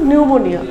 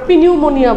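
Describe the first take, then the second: First: The word starts without a 'p' sound. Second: The word starts with a 'p' sound. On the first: The speaker calls it right. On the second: The speaker calls it wrong.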